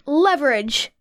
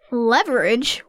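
First: Leverage. said slowly and falling, as if tasting it; savoring the word. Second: Leverage? asked with a rising, puzzled tune; puzzled question. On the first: Shown as a demonstration. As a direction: roll Leverage. around, pleased with the new word. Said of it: "Good word". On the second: Real, not acted. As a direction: ask Leverage? like a strange new word. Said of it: "What does that even mean?".

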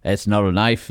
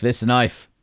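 First: Said in the usual way. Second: The Crocodile Dundee knife line in a mock Australian accent. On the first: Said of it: "should I do an Australian voice". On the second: Shown as a demonstration. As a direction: say knife the Aussie way, lightly hammed. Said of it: "you should do an Australian voice".

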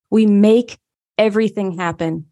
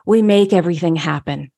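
First: "We make" rising, then "everything happen" dropped; stress on make. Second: Said in the usual way. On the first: Shown as a demonstration. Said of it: "repeats line with pause on make". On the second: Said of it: "repeats line, then splits it".

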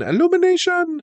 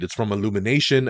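First: Illumination! flung up very high; a high gleeful shout of Illumination!; excited shout. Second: Said in the usual way. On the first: Acted. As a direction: cry out Illumination! in a big high rise. Excited repeat of studio name.

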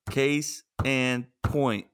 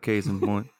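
First: "case", "and", "point" each set apart; very slow, punched "case and point"; emphatic declaration. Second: "and" shrunk to a bare N in "case in point"; mumbled, middle word swallowed. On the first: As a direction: hammer out "case and point" word by word. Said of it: "I would be like". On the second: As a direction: slur "case in point" into one run-together word. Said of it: "put an N in there". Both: Shown as a demonstration.

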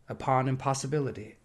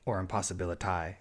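First: Said in the usual way. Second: "impossibilitae" with the end said as a long "tie" to rhyme; "impossibilitae" stretched to end in "eye"; rhyming pronunciation. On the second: Shown as a demonstration. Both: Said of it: "in order for it to rhyme".

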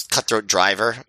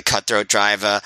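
First: Said in the usual way. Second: New York accent slipping out, R dropped on "driver". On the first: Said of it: "a very New York way to say". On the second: Real, not acted. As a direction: say "driver" as "driv-ah", like a New Yorker. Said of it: "that's my New York coming out".

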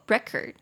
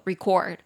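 First: "record" as REC-ord, stressed on the first syllable; noun stress. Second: "record" as re-CORD, stressed on the second syllable; verb stress. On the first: English teacher contrasting noun with verb, front stress on "record". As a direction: punch the front of "record", swallow the second syllable. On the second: English teacher contrasting verb with noun, end stress on "record". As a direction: keep the start of "record" light, land on CORD. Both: Shown as a demonstration. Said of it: "名词跟动词是不是听起来就差很多".

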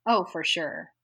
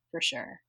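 First: Said in the usual way. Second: Breathy whispered for sure, dropped to almost nothing; whispered echo. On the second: Real, not acted. Agreeing with his co-host, repeating For sure in a whisper. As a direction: say For sure again under your breath, voiceless.

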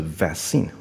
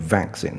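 First: Vaccine as ve-SEEN, k dropped, end stressed; wrong pronunciation shown. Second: Vaccine as VAC-seen, with a k sound in the throat; stress on first syllable. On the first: Teacher showing what not to say for vaccine, stress on the last syllable. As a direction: say vaccine without the k, weight on the end. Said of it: "不是vaccine". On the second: Teacher giving the proper vaccine, stress on the first syllable. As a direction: stress the front of vaccine, k before s. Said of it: "应该是念vaccine". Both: Shown as a demonstration.

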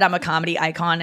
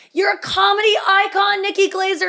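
First: Said in the usual way. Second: High, loud crowd yell of "comedy icon"; fan shouting. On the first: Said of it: "one person said". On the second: Retold or imitated. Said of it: "like, shouted".

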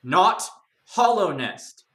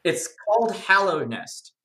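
First: Hollownest said with an O like hollow; Hollownest, the wrong way, like hollow; wrong pronunciation. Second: Hallownest said with an A as in hallway; HAL-lownest, open A; Hallownest, the correct way, with an A; right pronunciation. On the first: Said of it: "it is Hallownest, not". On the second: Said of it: "I also wanna make it clear". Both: Shown as a demonstration.

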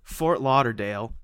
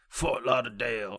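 First: Said in the usual way. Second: Put-on local Fort Lauderdale accent; joking stab at a Floridian accent; guessed Fort Lauderdale accent. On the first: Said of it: "accent-wise for Fort Lauderdale". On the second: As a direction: try out a made-up Florida accent. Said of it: "that's what I'm going with accent-wise for Fort Lauderdale".

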